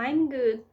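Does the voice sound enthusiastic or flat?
flat. It is said in a flat, unenthusiastic tone. The speaker does not sound convincingly fine. The speaker calls it wrong. "o meu tom de voz não transmite o mesmo, eu não vou convencer o meu ouvinte"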